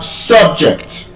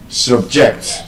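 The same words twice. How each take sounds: First: "subject" as SUB-ject, first syllable stressed; noun stress. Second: "subject" as sub-JECT, second syllable stressed; weak sub-, firm JECT in "subject"; verb stress. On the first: Teacher giving word pairs, first-syllable stress on "subject". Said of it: "stressed on the first syllable". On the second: Teacher giving word pairs, second-syllable stress on "subject". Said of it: "stressed on the second syllable". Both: Shown as a demonstration.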